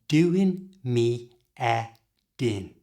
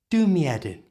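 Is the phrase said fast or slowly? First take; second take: slowly; fast. First: The phrase is said slowly. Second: The phrase is said fast. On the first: "So slowly" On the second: "And at full speed"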